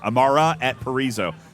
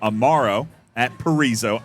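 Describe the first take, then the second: First: The name ends with an 'a' vowel. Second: The name ends with an 'o' vowel. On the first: The speaker calls it right. "Oh, it's an A" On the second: The speaker calls it wrong. "I'm being told I'm not saying that right"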